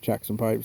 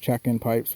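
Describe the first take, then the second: First: The first part sounds like jackson. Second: The first part sounds like check-in. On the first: The speaker calls it wrong. "I always say it wrong" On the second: The speaker calls it right. "I think it's Check-in Pipes"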